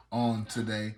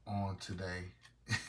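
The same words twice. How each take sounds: First: Said in the usual way. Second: Slow "on today" with a rising lilt, stretching "on"; drawn-out "on today". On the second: Retold or imitated. Echoing a phrase he loves, slow and drawn out. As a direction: savor "on today" slowly, the "on" drawn out and lifting at the end. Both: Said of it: "I love when people say that".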